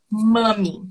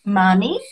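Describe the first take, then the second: First: "mami" drawn out with a falling end; "mami" said as a statement, tune falling; falling confirmation. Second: "Mami" swept up at the end like a question; "Mami?" with a rising tune; questioning rise. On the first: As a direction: settle "mami" downward as a model answer. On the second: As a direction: lift the end of "Mami" as if checking. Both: Shown as a demonstration. Drill, asking then confirming tune.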